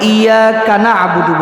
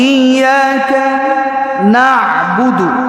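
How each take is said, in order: First: The two words run together as one. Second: The first word ends slowly, then stress on na. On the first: The speaker calls it wrong. "আমরা অধিকাংশ সময় এখানে একটা ভুল করে থাকি" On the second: The speaker calls it right. "একটু স্লোতে পড়বেন, পরেরটাতে একটু প্রেসার দিয়ে পড়বেন"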